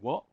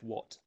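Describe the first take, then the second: First: The final T is dropped or swallowed. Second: The final T is clearly pronounced. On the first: "you might hear people say what" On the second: "That T adds a clarity"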